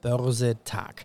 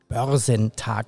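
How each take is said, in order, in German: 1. Vor der letzten Silbe kommt kein n-Laut. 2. Vor der letzten Silbe kommt ein n-Laut.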